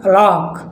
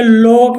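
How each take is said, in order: First: लॉक with open "aw", pitched down; short open O. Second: लॉक mispronounced as "loak"; wrong long O. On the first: Teacher correcting the reading, लॉक with open "aw". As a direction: say लॉक as "lawk". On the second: Teacher showing what not to read, लॉक with long "oh". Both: Shown as a demonstration. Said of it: "अब इसे लॉक नहीं पढ़ना है".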